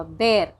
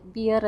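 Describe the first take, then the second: First: "ബെയർ" with an open e vowel; correct pronunciation. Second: "ബിയർ" with an ee vowel, bee-yer; wrong pronunciation. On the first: Host giving viewers the right usage, pronounced correctly. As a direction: say "ബെയർ" to rhyme with air. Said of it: "ആണ് correct". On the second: Host showing a very common error, mispronounced. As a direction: say "ബിയർ" like beer. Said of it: "അത് വളരെ തെറ്റായുള്ളൊരു usage ആണ്". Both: Shown as a demonstration.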